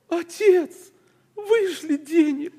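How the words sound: It is said in a soft, pleading tone. The sender is humbly asking for money. The speaker calls it right. "Он же просит"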